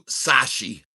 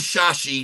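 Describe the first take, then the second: First: The name begins with an 's' sound. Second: The name begins with a 'sh' sound. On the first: "Number two" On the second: "Number one"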